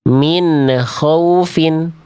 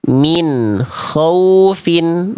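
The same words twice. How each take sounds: First: The n bounces with an extra vowel sound. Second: The n ends cleanly with no extra vowel. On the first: The speaker calls it wrong. "bunyiannya ada bunyi e-e-nya di ujung. Memantul" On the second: The speaker calls it right. "Nggak ada ne-ne-nya"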